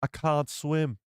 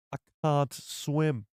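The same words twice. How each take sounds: First: Nasal "can't" mimicking Kino Loy; imitating the line. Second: "I can't swim" drawn out slowly, each word stretched; slow imitation. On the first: Streamer mimics Kino Loy line for chat, echoing the actor. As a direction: repeat "I can't swim" like the actor's delivery. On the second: Streamer repeats Kino Loy line slowly for chat, drawn-out imitation. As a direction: savour the line slowly like the actor did. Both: Shown as a demonstration. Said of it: "He's got that can't, you know?".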